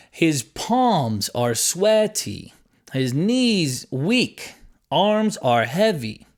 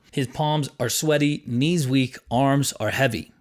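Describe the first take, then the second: First: Very slow, "palms", "sweaty", "knees", "heavy" stretched on their stressed syllables; exaggerated stresses. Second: Said in the usual way. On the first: Shown as a demonstration. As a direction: overdo each strong beat, drawn out. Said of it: "you can exaggerate the words". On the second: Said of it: "say the phrase naturally".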